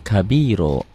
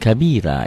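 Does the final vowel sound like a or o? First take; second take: o; a. First: The word ends with an o vowel. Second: The word ends with an a vowel. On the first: The speaker calls it right. "Ini ganti dengan o nya ya" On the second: The speaker calls it wrong. "Jangan kabira ya"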